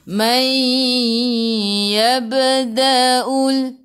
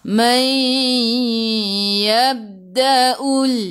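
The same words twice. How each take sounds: First: The b is released with a small bouncing echo. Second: The b is stopped without any bouncing release. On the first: The speaker calls it right. "jadi melantun" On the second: The speaker calls it wrong. "Kalau tak melantun, bunyi macam mana?"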